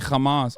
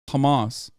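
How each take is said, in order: First: It begins with a harsh, throaty ch sound. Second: It begins with a soft, breathy h sound. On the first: "It's not a ch sound. I didn't say Hamas" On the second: "I said Hamas"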